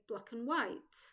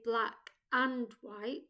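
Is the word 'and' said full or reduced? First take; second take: reduced; full. First: The word 'and' is reduced to 'un'. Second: The word 'and' is said in full. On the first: The speaker calls it right. "Instead, we say" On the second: The speaker calls it wrong. "We don't say"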